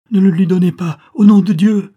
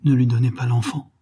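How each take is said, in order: First: Loud, high, frantic plea; desperate cry. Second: Contained, earnest entreaty; urgent plea. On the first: Mother begs bonesetter not to give up child, desperate cry. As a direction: cry out, building to near scream. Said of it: "s'écria la mère". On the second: Countess begs bonesetter to keep the child from count, restrained plea. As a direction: plead with restraint. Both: A narrator's reading.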